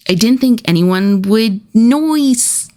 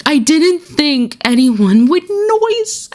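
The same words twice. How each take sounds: First: Mock sheepish. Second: High, slow mock-innocent whine; exaggerated squeaky innocent voice; hammed-up mock sheepish. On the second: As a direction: play it as a silly, guilty excuse. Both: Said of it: "Every time I read that quote".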